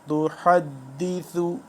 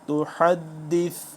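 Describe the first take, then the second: First: The word ends with a short final vowel. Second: The word ends on a consonant, vowel dropped. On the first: The reading continues on. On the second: The reading stops at this word.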